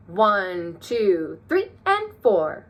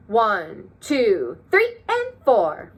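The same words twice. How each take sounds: First: Plain one, two, then three, and four jumping high; eighth notes higher. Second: Three, and four sung out high and slow; eighth notes higher. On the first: Teacher showing how to highlight eighth notes with a high voice. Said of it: "I counted the eighth notes higher". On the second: Teacher and class counting, eighth notes in a high silly voice. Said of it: "highlight the eighth notes". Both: Shown as a demonstration.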